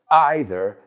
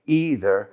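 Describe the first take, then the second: First: Either said EYE-ther; "either" with an opening eye sound; long I pronunciation. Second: Either said EE-ther; "either" starting like "eat"; long E pronunciation. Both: Shown as a demonstration. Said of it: "several accepted pronunciations".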